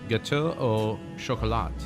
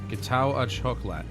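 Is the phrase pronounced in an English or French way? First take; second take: French; English. First: It is said with a French-style pronunciation. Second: It is read with a plain English pronunciation.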